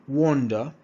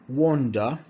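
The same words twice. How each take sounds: The two takes are said the same way.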